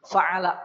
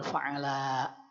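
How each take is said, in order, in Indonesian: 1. Vokalnya tetap pendek. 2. Vokalnya dibaca panjang. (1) "Fa'ala pendek" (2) "bukan fa'ala"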